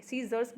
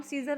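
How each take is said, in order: First: सीजर्स with a final s after r; correct plural form. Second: सीजर ending on r, no final s; wrong singular form. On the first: Teacher gives students the correct form, सीजर्स with final s. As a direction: sound the s ending on सीजर्स. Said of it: "सीजर्स बोलेंगे". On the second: Teacher shows students the form to avoid, सीजर without final s. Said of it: "हम सीजर नहीं बोलेंगे". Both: Shown as a demonstration.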